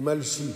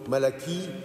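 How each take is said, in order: First: The name is said with two syllables. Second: The name is said with three syllables. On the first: This follows the Hebrew pronunciation. "ça se prononce en hébreu comme ça" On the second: This is the usual French form of the name. "on hésite toujours entre Malachie"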